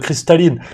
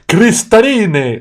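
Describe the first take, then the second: First: It is said with a plain French accent. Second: It is said with an Italian accent. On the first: The customer orders the drink. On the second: The waiter repeats the order back.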